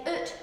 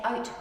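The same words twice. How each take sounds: First: Oot with a long oo vowel; Ulster Scots oot. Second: Said in the usual way. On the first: Shown as a demonstration. Teacher showing the Scots vowel to the class, oot with a long oo. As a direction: say oot, not out. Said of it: "you'd say oot". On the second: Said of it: "You wouldn't say out".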